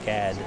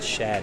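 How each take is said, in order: First: The name begins with an 'sk' sound. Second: The name begins with an 'sh' sound. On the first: The speaker calls it right. "It's SCAD" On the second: The speaker calls it wrong. "I said it wrong. I said Shad"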